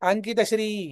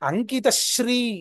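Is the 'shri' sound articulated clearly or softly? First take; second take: softly; clearly. First: The 'shri' is articulated softly, flowing from before. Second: The 'shri' is articulated crisply and distinctly. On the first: The speaker calls it wrong. "మృదువుగా శ్రీ అని అనకూడదు" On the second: The speaker calls it right. "శ్రీ అని స్పష్టతర ఉచ్చారణ ఉండాలి"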